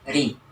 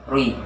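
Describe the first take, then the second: First: The lips are spread on the vowel. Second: The lips are rounded on the vowel. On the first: The speaker calls it right. "Maka dibaca tipis ri" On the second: The speaker calls it wrong. "Tidak boleh mengumpulkan bibir. Tidak boleh rui"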